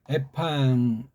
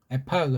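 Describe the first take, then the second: First: The consonant is said as a nasal ng. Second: The consonant is said as a hard g. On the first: The speaker calls it wrong. "두 개 할 때는 앞에 거를 이응자, 니은자로 한대" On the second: The speaker calls it right. "그냥 에파그 겔리안이 더 맞습니다"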